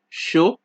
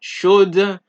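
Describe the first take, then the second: First: The final D is silent. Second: The final D sound is pronounced. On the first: The speaker calls it right. "It is ... chaud" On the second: The speaker calls it wrong. "it's not chaude"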